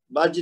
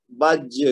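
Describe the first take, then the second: First: بج ending softly on ج, no bounce; soft final jeem. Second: بج with the final ج bounced out forcefully, a small echo; echoing jeem. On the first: Teacher showing students the wrong soft ending. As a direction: let the ج of بج close gently. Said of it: "بج نہیں کہیں گے". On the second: Teacher showing students the strong qalqala bounce. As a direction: jolt the ج at the end of بج. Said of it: "جیم کو ذرا زور سے جھٹکا دے کے پڑھیں گے". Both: Shown as a demonstration.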